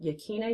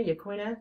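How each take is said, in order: First: Yaquina said as "yah-KEE-nuh"; unsure try at Yaquina, with a plain k sound; tentative pronunciation. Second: Yaquina said as "yah-KWIN-uh"; second try at Yaquina, with a kw sound; alternative pronunciation. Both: Shown as a demonstration. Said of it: "can't remember how to pronounce it".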